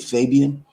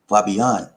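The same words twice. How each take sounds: First: The name is said the American way. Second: The name is said the Philippine way.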